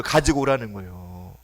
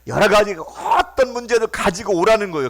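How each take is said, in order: First: 가지고 stressed in a lower, softer echo; quieter repeat. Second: 오라는 driven home loud and high; emphatic call. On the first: Preacher repeating the invitation lower, stressing 가지고. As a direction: drop down and lean on 가지고. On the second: Preacher urging the congregation, hitting 오라는. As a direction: preach the word 오라는 hard and rising. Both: Shown as a demonstration.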